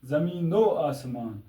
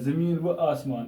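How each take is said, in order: First: The 'o' sound is joined onto 'zameen'. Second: A separate 'va' is said between the words. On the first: The speaker calls it right. "तो क्या पढ़ना पड़ेगा" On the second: The speaker calls it wrong. "ये भी गलत है"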